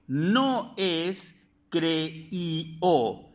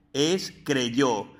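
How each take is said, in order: First: "creíó" drawn out slowly with no y, vowels split; wrong form creíó. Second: "creyó" with a clear y, falling; correct creyó. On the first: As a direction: stretch the wrong "creíó" to show the mistake. (forma incorrecta "creíó", muy lenta) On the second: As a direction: state "creyó" plainly with the y. (forma correcta "creyó" con y) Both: Shown as a demonstration.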